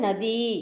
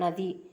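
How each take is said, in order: First: The final vowel is said long. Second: The final vowel is said short. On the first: This is the Hindi way of saying it. The speaker calls it right. "ஹிந்தியில் நதி அப்படின்னு நெடிலில் சொல்லணும்" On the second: This is the Tamil way of saying it. The speaker calls it wrong. "நம்ம தமிழில் வந்து குழியில் சொல்லுவோம்"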